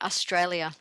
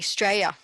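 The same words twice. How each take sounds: First: The word is said carefully, with every syllable. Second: The word is said loosely, with sounds softened. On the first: This is the proper, correct pronunciation. "rather than" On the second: This is the relaxed slang way locals say it. "we're so um, gentle, should I say, with our pronunciation of our words"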